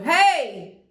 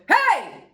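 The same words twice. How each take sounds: First: It is said without a strong push. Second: It is said with a strong diaphragm push.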